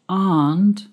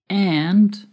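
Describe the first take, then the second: First: It is said in a British accent. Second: It is said in an American accent. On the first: "The pronunciation of aunt is British English" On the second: "Aunt is American English"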